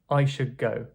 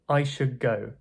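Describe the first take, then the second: First: The D in should becomes a G sound. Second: The D in should becomes a G sound.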